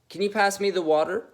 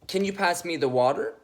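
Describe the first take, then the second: First: The pitch climbs upward at the end. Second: The pitch climbs upward at the end.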